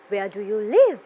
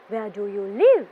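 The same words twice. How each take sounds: No difference in how they are said.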